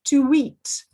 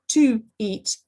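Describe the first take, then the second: First: A w sound links the two words. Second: The two words are said without a linking w. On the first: The speaker calls it right. "W appears" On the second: The speaker calls it wrong.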